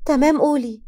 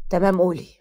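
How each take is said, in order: First: Quick higher, louder go-ahead; higher, eager "go on"; higher-voiced reply. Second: Lightly voiced man, pitch dropped; low, even "go on"; lower-voiced reply. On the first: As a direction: answer brightly, pitched up, ready to listen. First sibling answers in chat. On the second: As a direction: answer in a lower, steady voice. Second sibling answers in chat. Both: A narrator's reading.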